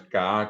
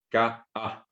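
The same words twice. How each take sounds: First: K A run together as one long kaa; K A without the break. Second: K A cut into ka, pause, a; glottal break in K A. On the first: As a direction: join both vowels of K A with no stop. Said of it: "no es K A como dicen algunos". (K A seguido, sin pausa en la voz) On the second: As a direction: stop the voice briefly between the two vowels of K A. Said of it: "una pausa en la voz". (K A con corte de voz entre las vocales) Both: Shown as a demonstration.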